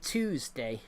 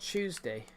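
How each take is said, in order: First: The first syllable is a plain 'too' sound. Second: The first syllable is a 'tyoo' sound. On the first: "If it was the way Americans say it, it it would actually be. It would be Tuesday" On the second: "not Tuesday"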